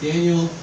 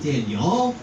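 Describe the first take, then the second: First: The name is said in a plain English way. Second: The name is said with a Texan twang. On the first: The speaker calls it right. "easy to pronounce in English" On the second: The speaker calls it wrong. "they'll Texanize it in the process"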